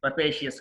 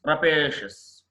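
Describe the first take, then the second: First: రపేషియస్ ending in "shi-yes"; wrong pronunciation. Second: రపేషియస్ ending in one "shus"; correct pronunciation. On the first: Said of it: "కాదు". (రపేషియస్ "షి-యెస్" అని తప్పుగా) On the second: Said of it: "రపేషియస్ కాదు". (రపేషియస్ "ర-పే-షస్" అని) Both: Shown as a demonstration.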